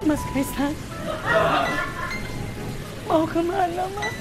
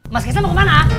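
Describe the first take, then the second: First: It is said in a sad tone. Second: It is said in an angry tone.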